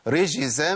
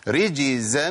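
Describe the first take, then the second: First: The middle consonant is a sh sound. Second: The middle consonant is a j sound. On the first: The speaker calls it wrong. "اسمعوا الخطأ فين؟ ... ده خطأ" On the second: The speaker calls it right. "ادينا مثال"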